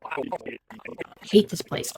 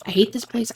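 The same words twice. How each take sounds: First: Slow, much softer whisper; whispered despair. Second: Said in the usual way. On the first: Acted. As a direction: breathe it out very slowly, barely voiced. Alone, talking to herself.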